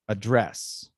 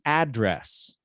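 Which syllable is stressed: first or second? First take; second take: second; first. First: The stress is on the second syllable. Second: The stress is on the first syllable. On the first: It is used as a verb. The speaker calls it right. "it's always like the second one" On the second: It is only possible for the noun. The speaker calls it wrong. "We can't say to address. That doesn't exist"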